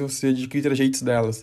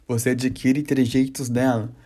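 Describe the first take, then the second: First: It is said very fast. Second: It is said more slowly.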